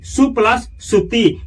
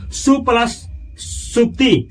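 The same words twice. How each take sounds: First: Said in the usual way. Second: Slow, spelled-out सु plus सुप्ति with सु stressed; slow split. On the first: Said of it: "teacher repeats the split". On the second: Shown as a demonstration. Teacher showing students the split, slowly. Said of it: "teacher splits the compound".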